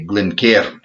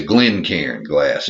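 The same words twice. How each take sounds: First: Attempted Scottish pronunciation of Glencairn; amateur's best go at Scottish; fake Scottish accent. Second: Glencairn with the weight on GLEN; Texan GLEN-cairn, first syllable stressed. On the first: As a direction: say Glencairn like a Scot. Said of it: "fake a Scottish accent as best I can". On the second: Shown as a demonstration. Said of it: "emphasis on the first syllable".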